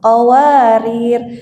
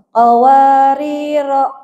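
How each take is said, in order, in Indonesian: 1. Kata ini berakhir pada huruf r tanpa vokal. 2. Kata ini berakhir dengan vokal pendek setelah r. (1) "Kalau mau berhenti, ... ro-nya tetap berlaku sukun" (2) "Kecuali kalau mau wa wasal"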